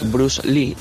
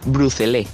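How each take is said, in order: First: The name is pronounced the usual way. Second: The name is pronounced in a distorted way. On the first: This is how the name is normally said. The speaker calls it right. "En vez de decir Bruce Lee" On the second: This is how older relatives say the name. The speaker calls it wrong. "dicen Bruce Lee"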